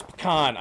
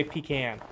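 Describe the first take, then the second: First: "pecan" said as puh-KAHN; other pronunciation of pecan. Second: "pecan" said as PEE-can; own pronunciation of pecan. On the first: Streamer concedes the other way to viewers, "pecan" as puh-KAHN. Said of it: "I know it's pecan, I say pecan". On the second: Streamer gives own way to viewers, "pecan" as PEE-can. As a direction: say "pecan" with a long ee, then can as in tin can. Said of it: "I say pecan". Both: Shown as a demonstration.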